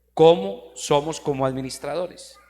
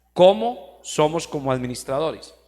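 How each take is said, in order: Both takes have the same delivery.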